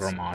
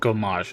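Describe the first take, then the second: First: The name starts with a g-r-o sound. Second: The name starts with a plain g-o sound. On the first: The speaker calls it wrong. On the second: The speaker calls it right. "Gomage, not"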